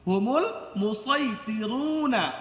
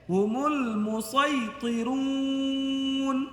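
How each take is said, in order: First: The phrase ends on a final vowel sound. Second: The phrase ends on a final consonant sound. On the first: The reading continues without stopping. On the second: The reader stops at this word.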